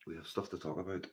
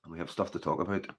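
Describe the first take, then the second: First: Much softer, dropped to a near hush; quiet, loaded promise of what's coming; ominous hush. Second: Said in the usual way. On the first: Shown as a demonstration. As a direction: let the repeat sink low and heavy.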